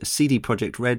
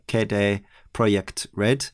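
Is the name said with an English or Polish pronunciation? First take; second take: English; Polish. First: The name is said with English pronunciation. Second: The name is said with Polish pronunciation. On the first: The speaker calls it wrong. "we've been saying that wrong" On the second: The speaker calls it right. "it should be something more along the lines of"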